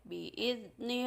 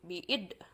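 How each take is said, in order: First: The consonant is smooth with no bounce. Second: The consonant is bounced like a released d. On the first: The speaker calls it right. "Tapi bi'izni rabbihim min kulli am" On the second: The speaker calls it wrong. "tidak boleh memantul karena bukan huruf dal, artinya bukan qalqalah, bukan bi'id bi'id"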